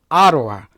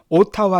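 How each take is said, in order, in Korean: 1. 가운데 자음은 부드러운 r 같은 탄설음입니다. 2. 가운데 자음은 강한 t 소리입니다. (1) "아로아 이렇게 발음하라고" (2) "발음은 오타와 하지 마시고"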